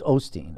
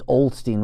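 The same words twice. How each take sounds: First: The name is said without an L sound. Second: The name is said with an L sound. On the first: The speaker calls it right. "It's not. It's Osteen" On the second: The speaker calls it wrong. "I used to think it was Osteen with the L"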